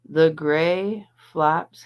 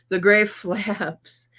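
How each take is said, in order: First: "flops" with an open ah vowel; misread as FLOPS. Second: "flaps" with the short a of cat; slow, higher re-read, landing on "flaps" rhyming with taps; corrected to FLAPS. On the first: Streamer misreading a chat message, slow "flops" with an ah. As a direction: slowly read it out as "flops", rhyming with tops. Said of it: "I said flops". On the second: Streamer correcting her misreading, slow "flaps" with short a. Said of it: "Did you say flops or flaps?". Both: Real, not acted.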